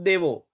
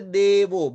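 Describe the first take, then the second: First: The first vowel is short. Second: The first vowel is long. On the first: The speaker calls it wrong. "Not Devo" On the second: The speaker calls it right. "Here Devo because no joint letter"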